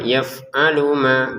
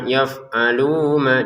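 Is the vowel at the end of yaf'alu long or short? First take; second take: short; long. First: The final u is short and runs into ma. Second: The final u is drawn out before ma. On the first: The speaker calls it right. "Yaf'alu langsung ke ma ya" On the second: The speaker calls it wrong. "Jangan yaf'alu ma, jangan, karena nggak ada wawu"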